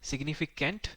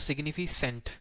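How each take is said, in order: First: The third syllable starts with a k sound. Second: The third syllable starts with an s sound. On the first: The speaker calls it right. "सिग्निफिकेंट ना read करके" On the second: The speaker calls it wrong. "कुछ student हो सकता है इसको सेंट read करें"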